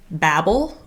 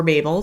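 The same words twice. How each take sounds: First: Babel with a short A, as in "babble"; first pronunciation of Babel. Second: Babel with a long A, as in "bay"; "Babel" said as BAY-bel; alternative pronunciation of Babel. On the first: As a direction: say "Babel" to rhyme with "rabble". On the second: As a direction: say "Babel" to rhyme with "table". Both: Shown as a demonstration. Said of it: "depending on how you pronounce it".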